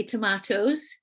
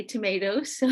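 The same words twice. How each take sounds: First: "tomatoes" with a broad AH in the middle, to-MAH-toes; their pronunciation of tomatoes. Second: "tomatoes" with a long AY in the middle, to-MAY-toes; our pronunciation of tomatoes. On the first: Speaker showing listeners how the children say it, "tomatoes" as to-MAH-toes. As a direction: say "tomatoes" the British and Irish way, middle vowel as ah. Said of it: "They say tomatoes". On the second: Speaker showing listeners how we say it, "tomatoes" as to-MAY-toes. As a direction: say "tomatoes" the American way, middle vowel as ay. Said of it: "we say tomatoes".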